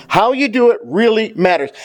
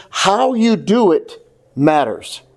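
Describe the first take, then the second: First: Preacher repeating the point with more force; raised emphasis. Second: "how you do it matters" drawn out slowly, weight on "do"; slow it right down and press on "do" in "how you do it matters"; preacher driving the point home slowly; slow emphasis. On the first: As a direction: push "do" up in "How you do it really matters". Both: Shown as a demonstration. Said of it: "listen, church".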